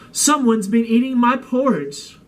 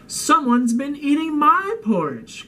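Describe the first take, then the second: First: It is said in a loud roar. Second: It is said in a crying voice.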